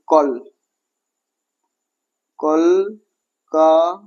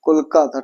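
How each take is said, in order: First: কলকাতা in syllables with long pauses between; very slowly separate kol, ka, ta in কলকাতা. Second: Said in the usual way. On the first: Shown as a demonstration. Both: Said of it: "এই যে তিনটা দল".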